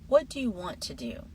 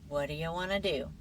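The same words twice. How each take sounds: First: Every word is pronounced fully and carefully. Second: The words are reduced and run together. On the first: "the textbook version first" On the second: "then the natural version"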